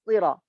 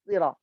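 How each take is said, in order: Both takes have the same delivery.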